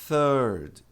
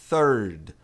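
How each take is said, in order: No difference in how they are said.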